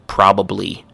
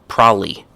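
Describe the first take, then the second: First: The word is said with all its syllables. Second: The word is squeezed with a syllable dropped. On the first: "the full pronunciation is" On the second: "another one is"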